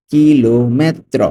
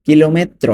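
First: Slow "কিলোমেত্র", each syllable drawn out; teacher's slow-motion model of "কিলোমেত্র"; slowly stretched out. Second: Said in the usual way. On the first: Shown as a demonstration. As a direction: stretch "ki-lo", then "me-tro" for the learner. Teacher repeats word slowly.

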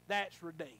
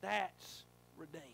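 First: Said in the usual way. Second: Slower, letting it sink in; slow repeat. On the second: Real, not acted. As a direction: say it again, slowly.

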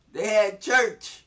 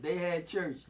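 First: "church" stretched slowly and said louder; emphatic. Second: Said in the usual way. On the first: Shown as a demonstration. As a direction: lean into "they had church", slow and strong.

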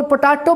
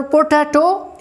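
First: पोटैटो said as "puh-TAA-to", with an open "aa" in the middle; incorrect pronunciation. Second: पोटैटो said as "po-TAY-to", with "ay" in the middle; correct pronunciation. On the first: Teacher shows students how some people say it, पोटैटो mispronounced as "puh-TAA-to". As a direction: say पोटैटो wrongly with a long "taa" for "tay". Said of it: "incorrect इसका pronunciation है". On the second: Teacher models the word for students, पोटैटो pronounced correctly as "po-TAY-to". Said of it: "जो कि incorrect इसका pronunciation है". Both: Shown as a demonstration.

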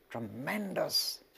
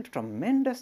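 First: Tremendous drawn out slowly, weight on the first syllable; stressed slowly. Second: Said in the usual way. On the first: Shown as a demonstration. Teacher lingering on Tremendous to explain longing for God. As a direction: stretch out Tremendous slowly and lean into it. Repeats word slowly for emphasis.

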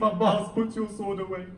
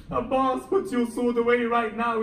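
First: Raised, firm order to stop; firm command. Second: Louder and higher, insistent order; urgent command. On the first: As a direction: hold him back with a firm raised voice. Hussein restrains Abbas. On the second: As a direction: press the order harder, almost a shout. Hussein repeats the order. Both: Acted.

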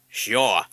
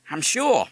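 First: Loud, short parrot echo. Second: Put-on high, loud boyish reply; Harry's assurance. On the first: Parrot echoing Harry, loud mimicry. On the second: Harry reassuring his father, high and confident. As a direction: pipe up confidently. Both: A narrator's reading.

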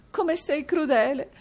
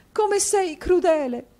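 First: Much higher, slow, tearful plea; sobbing wife. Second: Even higher, louder, slow wailing plea; rising sob. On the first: Wife to husband, tearful plea. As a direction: beg him through mock tears. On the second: Wife to husband, wailing louder. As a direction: break into a hammed-up wail. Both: A narrator's reading.

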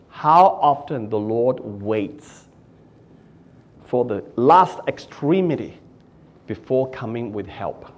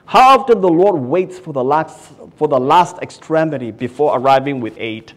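First: Measured quotation from the commentary; quoted reading. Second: Loud preaching build; fervent pulpit call; preached. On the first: Shown as a demonstration. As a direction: read the commentary slowly and gently. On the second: Acted. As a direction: drive the line home to the crowd. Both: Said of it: "Phillips writes in the commentary".

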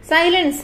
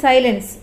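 First: Higher, sharp call for silence; royal command. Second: Said in the usual way. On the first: A narrator's reading. King silences the arguing animals, a commanding call. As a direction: call the forest assembly to order as a king. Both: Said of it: "മഹാരാജാവ് കൽപ്പിച്ചു".

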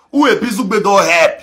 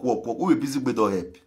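First: Louder, higher repeat of the jab; indignant repeated challenge. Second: Said in the usual way. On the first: Real, not acted. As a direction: hammer the question at critics.

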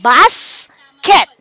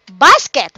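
First: "Basket" broken by a clear pause, Bas, ket; split into syllables. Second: Said in the usual way. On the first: Shown as a demonstration. Teacher showing kids two syllables, word split in two. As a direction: say "Basket" as two separate beats. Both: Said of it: "We have two syllables".

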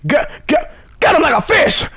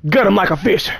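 First: Much higher, stuttered, punchy gut him like a fish; gleeful repeat. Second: Said in the usual way. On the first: Real, not acted. Player gleefully echoing the kill prompt, higher. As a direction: relish the line like a hype man.

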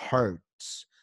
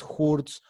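First: "hurts" with the English er sound, lower; correct English vowel. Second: "hurts" with a Spanish U, like "hoorts"; wrong Spanish vowel. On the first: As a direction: say "hurts" with an r-coloured vowel, not oo. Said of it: "no es hurts". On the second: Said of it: "cuando vamos a ver las vocales, no es". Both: Shown as a demonstration.

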